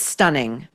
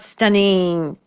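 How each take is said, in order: First: The final -ing has a standard pronunciation. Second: The final -ing has an odd LA-style pronunciation. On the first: The speaker calls it right. "It's stunning" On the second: The speaker calls it wrong. "It's not stunning"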